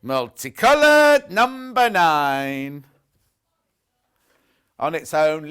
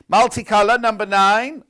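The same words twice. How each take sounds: First: Slow, drawn-out loud bingo call; bingo caller. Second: Loud sing-song bingo call; bingo caller. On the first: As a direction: stretch it like a bingo hall caller. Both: Shown as a demonstration. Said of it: "it sound like a bingo caller".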